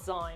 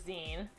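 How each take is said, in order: First: The vowel does not rhyme with magazine's ending. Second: The vowel rhymes with magazine's ending. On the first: This is how the listener says it. The speaker calls it wrong. "you call it Zine" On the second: It comes from the word magazine. The speaker calls it right. "because it's like magazine"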